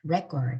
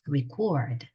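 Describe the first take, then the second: First: The stress is on the first syllable. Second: The stress is on the second syllable. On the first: It is the noun meaning a record. "이름절에 있으면 명사입니다" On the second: It is the verb meaning to record. "강세를 뒤에다 두셔야 돼요"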